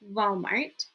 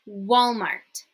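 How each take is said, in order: First: The word begins with a buzzing V sound. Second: The word begins with a rounded W sound. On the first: The speaker calls it wrong. "Not Walmart" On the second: The speaker calls it right. "W, not V"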